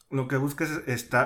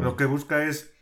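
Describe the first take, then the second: First: Said in the usual way. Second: Chewing an apple mid-sentence; mouth full. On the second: Real, not acted. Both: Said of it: "estoy comiendo una manzana".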